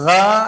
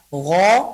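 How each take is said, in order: First: The consonant is said light and thin. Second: The consonant is said heavy and thick. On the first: The speaker calls it wrong. "menipiskannya, gha atau kha" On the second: The speaker calls it right. "Yang yang betul adalah gha dan kha"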